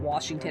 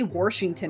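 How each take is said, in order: First: The first syllable sounds like wash, without r. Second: The first syllable sounds like warsh, with an r. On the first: This is how most people pronounce it. "instead of" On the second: This is how a relative pronounces it. "My mom would say"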